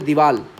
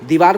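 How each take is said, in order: First: The word ends in an l sound. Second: The word ends in an r sound. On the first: The speaker calls it wrong. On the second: The speaker calls it right.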